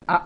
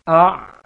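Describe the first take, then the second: First: "a" stopped short like a hamzah; cut-off wrong ain. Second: "A" loud and high, the ain drawn out and not cut off; sustained ain. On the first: Teacher showing the wrong stopped ain. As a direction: clip the "a" with a glottal stop. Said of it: "jangan a". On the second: Teacher demonstrating a flowing ain sukun, loud. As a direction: let the "A" run on from the throat. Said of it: "jalankan dia, dijalankan, jangan dihentikan". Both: Shown as a demonstration.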